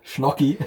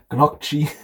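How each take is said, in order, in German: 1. Das Wort beginnt mit einem 'shn'-Laut. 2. Das Wort beginnt mit einem weichen 'ny'-Laut.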